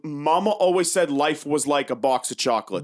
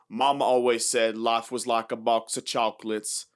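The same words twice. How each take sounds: First: It is said in a plain, natural voice. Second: It is said in a put-on character accent.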